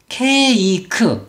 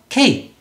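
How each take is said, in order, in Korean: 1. 세 음절로 발음해요. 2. 한 음절로 발음해요. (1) "한글처럼 ... 삼음절 아니야?" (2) "한 박자로 소리를 내야"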